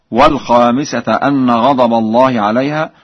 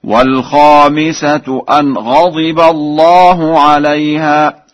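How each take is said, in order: First: Said in the usual way. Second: Slow higher chant, غضب said ghadiba; Warsh recitation. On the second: Shown as a demonstration. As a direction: recite الخامسة and الله with -u, light nun in أن. (ترتيل بكسر ضاد غضب ورفع الله) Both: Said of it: "وبكسر الضاد في غضب".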